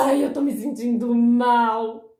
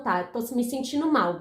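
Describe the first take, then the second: First: Loud, drawn-out mock wail; hammed-up woe-is-me complaint; self-pitying moan. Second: Said in the usual way. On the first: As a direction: exaggerate the whine, dragging each word. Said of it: "você não pode mais falar". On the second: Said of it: "você tem que ser maduro".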